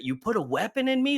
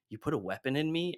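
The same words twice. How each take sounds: First: High mock yell of the line; pitched-up retold scream. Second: Said in the usual way. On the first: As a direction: scream the accusation, hammed up. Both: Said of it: "and then screams it".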